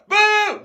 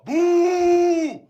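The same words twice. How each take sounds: First: The boo is pitched high, not deep. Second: The boo is pitched low and deep.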